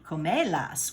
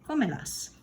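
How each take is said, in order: First: The stress is on the second syllable. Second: The stress is on the first syllable. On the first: The speaker calls it wrong. "which sounds really weird and doesn't sound anything like the verb" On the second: The speaker calls it right. "I have to put an accent right there"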